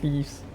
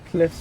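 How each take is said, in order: First: It has a long ee and ends in vz. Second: It has a short i and ends in fs. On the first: The speaker calls it wrong. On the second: The speaker calls it right.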